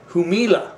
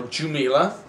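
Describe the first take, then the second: First: Jumilla with an H sound, hoo-MEE-la; Spanish pronunciation. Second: Jumilla with a hard English J, joo-MIL-la; English pronunciation. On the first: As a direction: Jumilla said as in Spain. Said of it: "or Jumilla". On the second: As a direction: say Jumilla the anglicized way with a J. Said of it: "We used to pronounce the J in English". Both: Shown as a demonstration.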